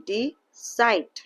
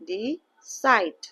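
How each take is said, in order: No difference in how they are said.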